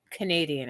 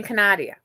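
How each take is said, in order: First: Said in the usual way. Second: "Canadia" said ka-NAH-dee-uh; stressed "nah" in "Canadia", no final n; mispronounced Canadian. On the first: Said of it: "I couldn't get the word". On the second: Shown as a demonstration. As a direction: say "Canadia" with an "ah" in the middle. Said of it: "I kept saying Canadia".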